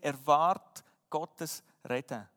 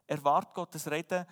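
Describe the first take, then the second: First: "Erwart Gottes Reden" drawn out slowly, each word weighted, falling at the end; slow emphatic motto. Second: "Erwart Gottes Reden" at normal pace, rising at the end; repeated motto. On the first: Preacher stating his first point to the church, slow and weighty. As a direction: spell it out slowly like a heading. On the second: Preacher repeating the point to his listeners, rising appeal. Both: Shown as a demonstration. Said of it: "Wir haben vier Punkte gesehen".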